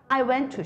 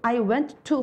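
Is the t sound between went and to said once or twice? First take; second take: once; twice. First: The t sound is pronounced only once. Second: The t sound is pronounced twice, separately. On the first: The speaker calls it right. "한 번만 발음해요" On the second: The speaker calls it wrong. "I went to 합니까?"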